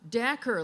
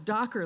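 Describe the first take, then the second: First: The first vowel sounds like the one in 'snack'. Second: The first vowel sounds like the one in 'dock'. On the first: The speaker calls it right. "turns out it's Dacker, like snacker" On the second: The speaker calls it wrong. "I thought it was Docker, like Dockers that you wear"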